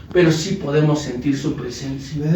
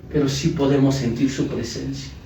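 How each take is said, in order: No difference in how they are said.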